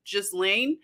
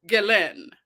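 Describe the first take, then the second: First: Ghislaine said as "CHIZ-lane", a Z in the middle; the "Ghislaine" some people use, sounding the S as a Z; other people's version. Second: Ghislaine said as "GEH-len", hard G, no S or Z; name said correctly. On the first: Retold or imitated. Repeating what others say, Ghislaine with a Z sound. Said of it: "I've heard other people say Ghislaine". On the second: Shown as a demonstration. Setting the chat straight on the name, Ghislaine as "GEH-len". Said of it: "I'm gonna say it like I hear the other people".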